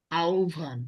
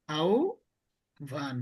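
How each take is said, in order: First: Said in the usual way. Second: আহ্বান stretched very slowly as "aubhan", the h silent; slow drawn-out demo. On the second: Shown as a demonstration. Teacher to students modelling আহ্বান very slowly as "aubhan". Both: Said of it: "এটার উচ্চারণ কি?".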